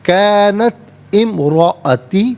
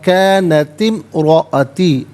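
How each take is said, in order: First: The two words are read separately. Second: The two words are joined with the hamza dropped.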